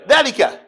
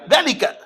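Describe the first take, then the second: First: The first vowel is short. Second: The same.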